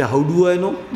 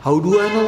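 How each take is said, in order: First: Innocently. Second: Mock-innocent "How do I know?"; innocently. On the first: Retold or imitated. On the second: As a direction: play dumb, shrug it off. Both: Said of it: "मैं भी बड़ा innocently".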